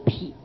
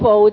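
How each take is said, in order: First: It is read with the syllable pi. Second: It is read with the syllable fou. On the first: "我们要读皮" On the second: "这个否字"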